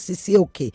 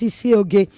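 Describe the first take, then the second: First: The consonant near the end is a k sound. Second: The consonant near the end is a g sound. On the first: The speaker calls it wrong. "it's not Sisioke" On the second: The speaker calls it right. "It's Sisioge"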